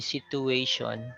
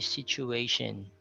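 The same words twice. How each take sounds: First: The t is a plain t sound. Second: The t is a ch sound. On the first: The speaker calls it wrong. "You don't say situation" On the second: The speaker calls it right. "So we say situation"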